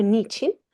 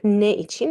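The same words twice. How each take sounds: First: "niçin" run together as NI-çin; merged "niçin", with no e after the n; contracted form. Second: "ne için" as two separate words, ne i-çin; full "ne için", the e of ne sounded; uncontracted form. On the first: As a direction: say "niçin" as one two-syllable word. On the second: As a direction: keep both vowels where "ne için" meets. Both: Shown as a demonstration. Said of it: "It's like ne için or niçin".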